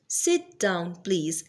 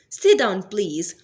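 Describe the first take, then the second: First: The phrase is said slowly, word by word. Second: The phrase is said quickly and smoothly. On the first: "Now speak it slowly" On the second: "Speak it fluently"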